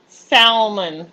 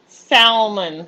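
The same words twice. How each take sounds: First: The word is said with an audible L sound. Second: The word is said with an audible L sound.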